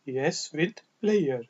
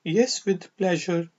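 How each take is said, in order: First: "player" said PLAY-er, with a y glide and no j; pleasure as player. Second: "pleasure" said PLEH-jer, with a j sound in the middle. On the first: Teacher shows the other accepted reading, "player" pronounced PLAY-er. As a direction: slowly model the variant "player", PLAY-er. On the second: Teacher models a polite reply, "pleasure" pronounced PLEH-jer. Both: Shown as a demonstration. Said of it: "कुछ लोग इसको प्लेयर भी पढ़ते हैं".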